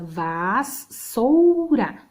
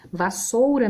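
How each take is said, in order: First: Vassoura broken slowly into syllables, vas-sou-ra. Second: Said in the usual way. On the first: Shown as a demonstration. (Vassoura separada em sílabas, bem devagar) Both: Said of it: "mesma coisa".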